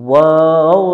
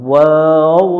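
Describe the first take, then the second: Both takes have the same delivery.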